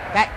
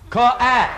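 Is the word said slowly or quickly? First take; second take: quickly; slowly. First: The word is said quickly and clipped. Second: The word is drawn out slowly.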